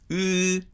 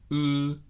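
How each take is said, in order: First: The lips are spread sideways for the vowel. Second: The lips are rounded and pushed out, not narrowed. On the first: The speaker calls it wrong. "積極的に唇を横に開くわけでもないし" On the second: The speaker calls it right. "積極的に唇を丸めて狭めない"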